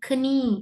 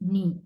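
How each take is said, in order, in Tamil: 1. இந்த வார்த்தை k ஒலியில் ஆரம்பிக்கிறது. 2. இந்த வார்த்தை n ஒலியில் ஆரம்பிக்கிறது. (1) "சிலர்கள் கினி என்றுவாங்க" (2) "நீ என்றது முழங்காலுக்கு நீ"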